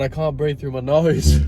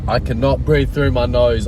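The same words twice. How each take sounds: First: Stuffed-up nose from a cold; blocked nose. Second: Nasal from a head cold; blocked nose. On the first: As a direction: talk through a blocked nose. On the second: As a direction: speak through a stuffed nose. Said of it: "I'm so nasally". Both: Real, not acted.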